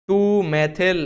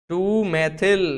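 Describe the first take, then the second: The two takes are said the same way.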